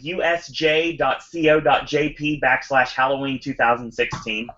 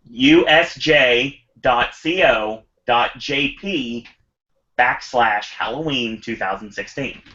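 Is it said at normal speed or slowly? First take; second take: normal speed; slowly. First: It is said at normal speed. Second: It is said slowly and carefully.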